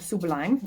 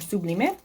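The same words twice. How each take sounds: First: It is said with an English pronunciation. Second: It is said with a Spanish pronunciation.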